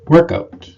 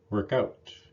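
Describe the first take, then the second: First: The stress falls on the first word. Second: The stress falls on the second word. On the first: It is used as a noun. "Noun partners of these verbs have primary stress on the first word" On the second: It is used as a verb. "Two-word verbs are often stressed on the second word"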